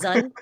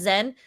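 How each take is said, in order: First: The name is said with an 'uh' vowel. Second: The name is said with an 'eh' vowel. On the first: This is how the name is actually said. The speaker calls it right. "his name is actually pronounced Zun" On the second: This is the common way people say the name. The speaker calls it wrong. "I know everyone pronounced it as Zen"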